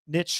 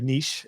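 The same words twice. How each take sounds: First: The word is said the American way. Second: The word is said the British way.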